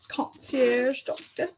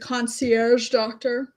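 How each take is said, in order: First: It is said with a put-on fancy accent. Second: It is said in an ordinary, plain voice.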